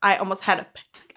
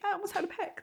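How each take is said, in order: First: Said in the usual way. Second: Much higher and softer, a mock panicky squeak; a high, soft fake panic.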